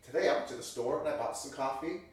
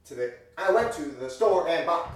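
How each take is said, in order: First: Said in the usual way. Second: Loud, jagged, random accents; ridiculous sing-song phrasing; odd overblown inflection. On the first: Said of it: "most people would speak". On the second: Shown as a demonstration. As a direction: stress the wrong words loudly. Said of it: "nobody would really talk like that".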